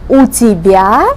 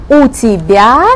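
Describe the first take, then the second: Both takes have the same delivery.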